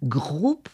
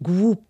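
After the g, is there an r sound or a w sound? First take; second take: r sound; w sound. First: A strong French r follows the g. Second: The r after g becomes a w sound. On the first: This is how French speakers say it. "j'ai forcé un petit peu sur le R" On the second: This is how Creole speakers say it. "on entend un « w »"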